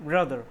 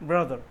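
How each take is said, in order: No difference in how they are said.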